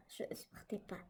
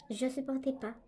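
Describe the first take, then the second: First: "Je supportais pas" whispered, no voice at all. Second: Said in the usual way. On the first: Real, not acted. Telling viewers she couldn't bear it, in a whisper. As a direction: let "Je supportais pas" fall to a bare breath. Confessing nightly fear, voice drops.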